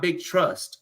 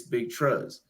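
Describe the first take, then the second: First: Said in the usual way. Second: "Trust" with the last T left off, like "truss"; "Trust" with no final T, Baltimore style; final T dropped. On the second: Shown as a demonstration. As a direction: say "Trust" ending on the S. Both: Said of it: "There's no T's".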